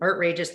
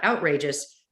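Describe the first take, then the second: First: The first syllable sounds like the word art. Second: The first syllable sounds like the word out. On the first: The name is a play on the word art. The speaker calls it right. "as in outrageous" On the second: This is the ordinary word, not the show's name. The speaker calls it wrong. "not outrageous"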